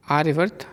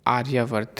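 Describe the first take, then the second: First: आर्यवर्त with short य; the mistaken आर्यवर्त; wrong form. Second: आर्यावर्त with a long या; the proper आर्यावर्त; correct form. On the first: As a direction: say आर्यवर्त, no long vowel after र्य. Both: Shown as a demonstration. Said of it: "अशुद्ध और शुद्ध रूप".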